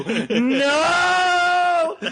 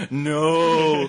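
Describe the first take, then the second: First: Long, high wailed NO; hammed-up horror-hero howl; mock horror cry. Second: Drawn-out no at normal pitch; restrained movie-hero dread; mock dismay. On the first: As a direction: escalate into a drawn-out movie scream. Ash impression, escalating cry. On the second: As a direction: act out horror, held back at first. Ash impression, first of two cries.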